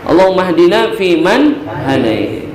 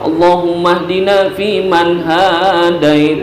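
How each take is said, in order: First: The vowels are kept at normal length. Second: Some vowels are stretched out long. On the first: The speaker calls it right. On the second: The speaker calls it wrong.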